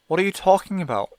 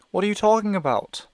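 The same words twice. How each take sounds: First: A sudden lift of energy, louder and higher; new energy. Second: Sudden urgent lift, higher and louder; new energy. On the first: Mother suddenly urgent with Evan, energized and louder. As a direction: grief turns suddenly urgent. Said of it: "with new energy in her voice". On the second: Mother presses Evan with new urgency, higher and louder. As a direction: she seizes on a hope. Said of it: "energy in her voice". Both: Acted.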